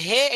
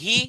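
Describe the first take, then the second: First: The vowel sounds like 'e'. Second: The vowel sounds like a short 'i'. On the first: The speaker calls it wrong. "অনেকে একারের মতো উচ্চারণ করে, বলে হে, এটা ভুল" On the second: The speaker calls it right. "রস্ব ইকার উচ্চারণ হবে হি"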